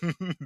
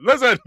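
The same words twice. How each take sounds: First: Said in the usual way. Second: High, loud bark of Listen; yelling Gunther. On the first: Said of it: "I'd be like". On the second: Acted. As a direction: shout it like an angry wrestler. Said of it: "'cause he yells a lot".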